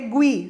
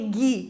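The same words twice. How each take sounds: First: The u is sounded, giving a 'gwi' sound. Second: The u is silent, giving a plain 'gi' sound. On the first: "e sim que, qui, gue, gui" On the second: "que não é um que, que, ge, gui"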